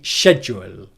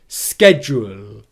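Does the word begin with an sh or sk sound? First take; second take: sh; sk. First: The word begins with an sh sound. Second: The word begins with an sk sound. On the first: This is the British pronunciation. "if you want to learn the British accent and British pronunciation in English, then I recommend learning schedule" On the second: This is the American pronunciation. "the American pronunciation of the word schedule is schedule... Sk"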